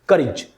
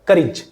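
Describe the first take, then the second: No difference in how they are said.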